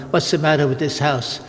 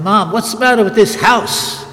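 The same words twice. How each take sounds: First: Said in the usual way. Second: Put-on higher, louder cheeky kid complaining; bratty child. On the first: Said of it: "Who am I dare to tell my mother". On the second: Priest recalling himself as a boy sassing his mother, bratty. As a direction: play the little brat challenging mom. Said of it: "You're a little brat I was".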